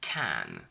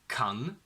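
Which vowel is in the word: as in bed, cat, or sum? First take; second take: cat; sum. First: The vowel sounds like the one in cat. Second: The vowel sounds like the one in sum. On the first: The speaker calls it right. "we only say can" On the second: The speaker calls it wrong. "Can is not pronounced as kun"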